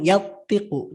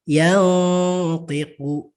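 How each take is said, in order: First: The n sound is dropped completely. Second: The n sound is faint and nasal. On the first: The speaker calls it wrong. "nunnya seolah-olah tidak ada" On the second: The speaker calls it right. "Maka dia samar"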